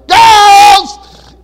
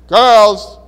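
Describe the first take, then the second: First: It is called out more loudly. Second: It is called out at a moderate volume.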